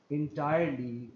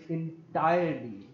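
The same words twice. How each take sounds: The two takes are said the same way.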